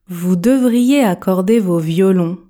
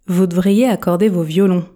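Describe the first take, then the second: First: The sentence is spoken at ordinary speed. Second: The sentence is spoken quickly with a dropped vowel. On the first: "Version normale" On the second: "Version express"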